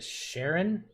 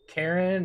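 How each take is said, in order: First: The name begins with a soft sh sound. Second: The name begins with a hard k sound. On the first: The speaker calls it wrong. "am I saying that right" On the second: The speaker calls it right. "they tended to hard see the the the ch"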